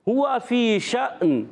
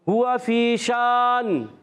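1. आख़िरी शब्द का स्वर छोटा है। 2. आख़िरी शब्द का स्वर लंबा है। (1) "मध्य आरिज नहीं होगा" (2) "ये गलत है"

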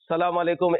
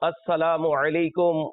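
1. এটি দ্রুত বলা হয়, ধ্বনিগুলো ছেঁটে যায়। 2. এটি ধীরে বলা হয়, প্রতিটি ধ্বনি পূর্ণভাবে উচ্চারিত হয়। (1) "এভাবে তাড়াহুড়ো করে বলে দিই" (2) "এভাবে সঠিক শব্দাবলী উচ্চারণ দ্বারা সালাম দেওয়া উচিত"

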